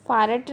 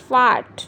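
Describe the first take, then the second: First: ਫਾਰਟ with a clearly sounded R before the T; wrong pronunciation demo. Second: ਫਾਰਟ said loudly without any R; long open vowel straight into T in ਫਾਰਟ; silent R. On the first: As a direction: pronounce the R in ਫਾਰਟ. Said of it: "ਫਾਰਟ ਨਹੀਂ ਕਹਿਣਾ". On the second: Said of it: "ਆਰ ਵਿੱਚ silent ਆ". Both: Shown as a demonstration.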